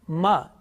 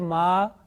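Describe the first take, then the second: First: The vowel is held briefly, about one beat. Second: The vowel is drawn out and held longer. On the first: The speaker calls it right. "how many seconds you need for that? One second. ... is it right? Yes" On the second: The speaker calls it wrong. "it's wrong because this is long vowels"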